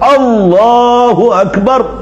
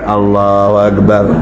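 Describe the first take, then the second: First: It is said firmly and forcefully, upright. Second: It is said weakly and limply, without force. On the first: It truly glorifies God and stirs the heart. The speaker calls it right. "Dari modelnya yang betul, yang tegak" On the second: It does not glorify God. The speaker calls it wrong. "Dari modelnya aja sudah tidak membesarkan"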